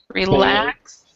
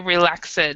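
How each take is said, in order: First: The ending is not a separate syllable. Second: The ending is said as a separate syllable. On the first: The speaker calls it right. "we all of those we do not have an ed" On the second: The speaker calls it wrong. "We do not say relaxed"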